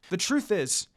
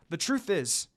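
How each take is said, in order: Both takes have the same delivery.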